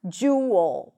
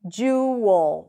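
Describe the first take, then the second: First: A schwa vowel comes before the L. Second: The same.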